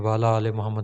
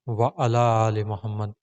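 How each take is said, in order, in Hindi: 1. पहले दो शब्द जुड़कर 'wala' बोले जाते हैं। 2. 'wa' और 'ala' अलग-अलग बोले जाते हैं, 'ain' के साथ। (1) "सभी इस तरह ही पढ़ते हैं" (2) "इस लफ्ज़ को आप जो है वो सही अ, अलग करके पढ़ें आइन को"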